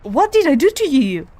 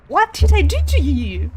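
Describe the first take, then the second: First: Loud, high outburst with DID leaned on; real frustrated shout. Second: Loud, high outburst with TO leaned on; real frustrated shout. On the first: Player pleading with the boss attacking her, loud outburst. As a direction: yell at the screen in disbelief. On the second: Player repeating her plea to the attacker, loud outburst. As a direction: yell it again, still louder in disbelief. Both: Real, not acted.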